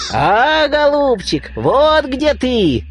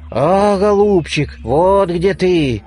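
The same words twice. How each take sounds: First: High, squeaky and slow, like a bird's beak; squeaky bird nose. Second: A lightly voiced bleating ram's head, slow. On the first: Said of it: "запищал птичий нос". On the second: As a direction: bleat the words a little, slowly. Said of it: "заблеяла баранья голова". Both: A narrator's reading.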